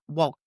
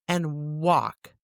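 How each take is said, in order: First: The L sound is pronounced. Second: The L sound is silent. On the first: The speaker calls it wrong. "not walk" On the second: The speaker calls it right. "You see it, but you don't say it"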